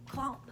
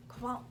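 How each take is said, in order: Both takes have the same delivery.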